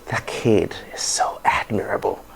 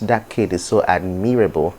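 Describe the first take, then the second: First: Admirable is not stressed on its second syllable. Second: Admirable is stressed on its second syllable. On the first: The speaker calls it right. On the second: The speaker calls it wrong.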